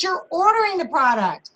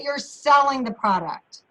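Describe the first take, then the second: First: "ordering" pitched up high for contrast; high, emphatic "ordering"; stress on ordering. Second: "selling" leaned on as the correction; firm, corrective emphasis on "selling"; stress on selling. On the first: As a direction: lift "ordering" high, as the thing not meant. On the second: Contrast of ordering and selling. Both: Shown as a demonstration.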